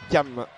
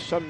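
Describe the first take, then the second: First: The name starts with a 'k' sound. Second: The name starts with a 'sh' sound. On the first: The speaker calls it right. "mais Cam" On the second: The speaker calls it wrong. "On dit pas Cham"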